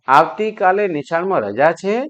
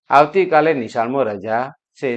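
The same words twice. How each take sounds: First: It is said as a question. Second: It is said as a plain statement.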